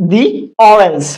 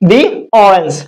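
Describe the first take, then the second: First: The word 'the' is said as 'thee'. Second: The same.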